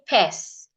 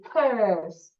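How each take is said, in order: First: The vowel is a short 'e' sound. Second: The vowel is a long 'er' sound. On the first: The speaker calls it wrong. "we don't say pes" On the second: The speaker calls it right. "The word purse also has this vowel sound, er"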